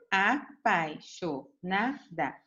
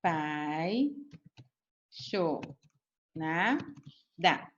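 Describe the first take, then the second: First: "Apaixonada" said slowly as one whole word; "Apaixonada" read out slowly but joined up; slow clear reading. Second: A-pai-xo-na-da, each syllable slow and apart; "Apaixonada" spelled out syllable by syllable, drawn out and softer; split into syllables. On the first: Teacher repeating the word for pupils: slow, as one word. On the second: Teacher to pupils showing the syllable split: very slow, syllable by syllable. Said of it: "Assim, certo?". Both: Shown as a demonstration.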